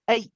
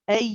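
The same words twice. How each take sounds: First: The vowel sound is cut off abruptly. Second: The vowel sound keeps running without a break. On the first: The speaker calls it wrong. "we don't say a and then stop" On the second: The speaker calls it right. "Keep it going"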